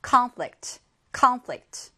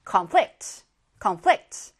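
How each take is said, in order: First: Conflict said as CONflict, weight on the first syllable and falling at the end; stress on the first syllable. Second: Conflict said as conFLICT, weight on the second syllable and rising; stress on the second syllable. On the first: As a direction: say conflict as a noun, punching CON. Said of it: "앞에 강세가 오면 명사로 보통 쓰이고요". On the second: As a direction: say conflict as a verb, leaning on FLICT. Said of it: "뒤에 강세가 오면 동사로". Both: Shown as a demonstration.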